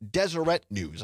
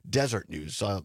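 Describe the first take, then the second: First: The first word is said as 'Deseret'. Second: The first word is said as 'desert'. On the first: The speaker calls it right. "The correct pronunciation is Deseret News" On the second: The speaker calls it wrong. "I think I was pronouncing it Desert News"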